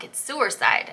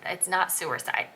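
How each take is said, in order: First: "suicide" said New England style, "suer-side"; six-year-old me in a New England accent. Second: "suicide" said the standard way, "soo-i-side"; correcting it, "suicide" with a clear "soo"; correct pronunciation. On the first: To the friend from California, insisting "suicide" in a New England accent. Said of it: "that's New England accent". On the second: California friend correcting the kid, "suicide" said the standard way. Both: Retold or imitated.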